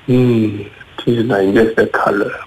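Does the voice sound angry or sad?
sad. It is said in a sad voice.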